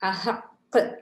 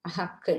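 First: The final consonant is pressed and audibly bounced. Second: The final consonant is clipped without a bounce. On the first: The speaker calls it right. "நன்கு வெளித்தெரியும் படியாக அழுத்தி உச்சரிக்க வேண்டும்" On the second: The speaker calls it wrong. "என்று ஓதுவது பிழை"

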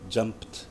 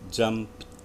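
Both takes have the same delivery.

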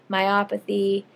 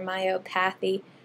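First: The stress falls on the 'op' syllable. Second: The stress falls on the 'path' syllable. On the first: The speaker calls it right. "it's really opathy at the end of the word" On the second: The speaker calls it wrong. "everyone wants to say nephropathy or myopathy"

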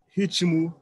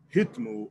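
First: A short vowel separates the t and m. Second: The t and m are joined with no vowel. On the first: This is the usual colloquial Brazilian form. "falam ... ritmo" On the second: This is not the usual colloquial Brazilian form. "não falam ... ritmo"

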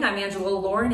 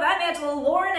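First: It is said in a news anchor voice. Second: It is said in a game show host voice.

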